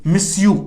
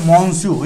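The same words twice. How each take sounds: First: "मिस यू" run together, no n; French pronunciation. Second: "मॉन्स्यू" with a sounded n; spelling pronunciation. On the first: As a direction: say "मिस यू" as one word, monsieur. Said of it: "pronunciation होता है वो थोड़ा सा दोस्तों different". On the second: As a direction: say "मॉन्स्यू" as it is written. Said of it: "लिखने में अलग होता है". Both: Shown as a demonstration.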